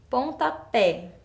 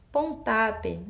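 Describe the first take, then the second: First: "pontapé" said slowly, stressed on the final open pé; correct pronunciation of pontapé. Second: "Pontape" with stress on the middle syllable; wrong stress on pontapé. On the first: Teacher shows where the strong syllable is, "pontapé" slowly, ending on stressed pé. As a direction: say "pontapé" as pon-ta-PÉ. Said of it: "minha sílaba tônica tá lá no final". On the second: Teacher repeats a word that doesn't exist, "Pontape" stressed on ta. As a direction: say "Pontape" as pon-TA-pe. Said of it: "a gente sabe que não existe". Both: Shown as a demonstration.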